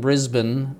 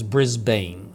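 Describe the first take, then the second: First: Brisbane is said with an Australian pronunciation. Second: Brisbane is said with a non-Australian pronunciation. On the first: "I'm saying it the Australian way" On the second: "The real way to pronounce that is Brisbane"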